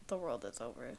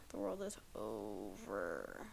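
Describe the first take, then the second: First: Said in the usual way. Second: Much lower, slow and dark, mock tragic; doom-laden repeat. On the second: Shown as a demonstration. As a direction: drop it low like the end of the world. Repeated for dramatic effect.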